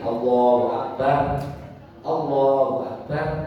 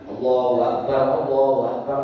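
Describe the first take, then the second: First: Each phrase ends with a clear pause. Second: Fast, with akbar's final sound cut off. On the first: The speaker calls it right. "Kalau bacanya putus-putus wakof, boleh begini" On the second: The speaker calls it wrong. "Tapi kalau cepat ... itu salah"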